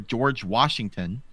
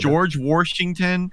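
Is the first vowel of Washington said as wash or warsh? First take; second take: wash; warsh. First: Washington is said with a plain wash sound. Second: Washington is said with an r, like warsh.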